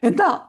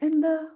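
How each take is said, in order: First: It is snapped in a harsh, irritated tone. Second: It is asked in a gentle, warm tone. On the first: The asker is annoyed and pushes the child away. The speaker calls it wrong. "അവരങ്ങോട്ട് back അടിക്കുകയും ചെയ്യും" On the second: The asker is open and welcoming. The speaker calls it right. "നേരെ നമ്മൾ എന്താ എന്ന് ചോദിച്ചു കഴിഞ്ഞാല് മക്കൾക്ക് അത് ഭയങ്കരമായിട്ട് ഇഷ്ടപ്പെടും"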